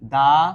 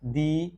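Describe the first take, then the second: First: The word ends in a short 'uh' vowel. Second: The word ends in an 'ee' vowel. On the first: "কখনো দা" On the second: "কখনো দি"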